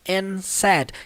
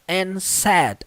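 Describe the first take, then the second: First: The d is dropped, leaving only the n sound. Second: The d at the end of 'and' is pronounced. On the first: "você vai basicamente ver só o som do N" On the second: "é comum você ver como and said"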